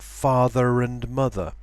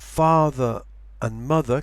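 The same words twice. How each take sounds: First: An R sound links father to and. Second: No R sound links father to and.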